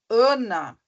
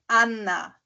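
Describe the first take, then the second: First: The first vowel is nasal. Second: The first vowel is open and oral. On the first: This is the Portuguese way of saying it. "o ã, ã, a gente não tá mais falando a, a gente tá falando ã" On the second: This is the German way of saying it. "Ele é falado sempre a, é Anna"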